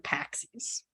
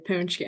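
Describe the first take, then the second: First: The word begins with a 'pax' sound. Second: The word begins with a 'punch' sound. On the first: This is the casual family way of saying it. The speaker calls it wrong. "when I talk to my family, I'll be like" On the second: This is the proper way of saying it. The speaker calls it right. "I'm gonna say it right this time"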